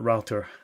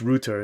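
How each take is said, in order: First: Router is said in the American way. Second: Router is said in a non-American way. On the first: The speaker calls it wrong. "it's not router" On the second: The speaker calls it right. "it's router"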